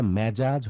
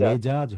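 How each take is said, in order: First: মেজাজ with "æ" in the first syllable; wrong open vowel. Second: মেজাজ with a pure "e" in the first syllable; correct close vowel. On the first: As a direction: say মেজাজ as "mæ-jaj". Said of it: "মেজাজ হবে না". (মেজাজ-কে "ম্যাজাজ" বলে উচ্চারণ) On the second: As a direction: say মেজাজ as "me-jaj". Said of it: "মেজাজ হবে". (মেজাজ-এ খাঁটি "এ" উচ্চারণ) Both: Shown as a demonstration.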